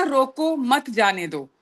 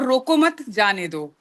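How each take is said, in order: First: रोको मत run together as "don't stop", then जाने दो; group रोको मत as one phrase, slowly, then let जाने दो fall; slow demo with the comma after मत; pause after मत. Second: रोको set apart as "stop", then मत जाने दो; pause after रोको. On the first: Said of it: "शब्द वही हैं सारे, बस थोड़ा सा एक विराम". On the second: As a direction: break after रोको, stress मत, let जाने दो fall. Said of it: "कहीं पे हमारा कॉमा बदल गया". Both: Shown as a demonstration.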